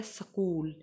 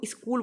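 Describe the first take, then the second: First: स्कूल said səkul, short vowel inserted after s; स्कूल broken into sə-kul; स्कूल with a light schwa, sə-kul; correct way, as the teacher says it. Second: स्कूल said skul, tight s-k cluster, no vowel between; स्कूल as one quick syllable skul; स्कूल said plainly as skul, the common error; wrong way, said as in Hindi. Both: Shown as a demonstration. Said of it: "ये actually स्कूल होता नहीं".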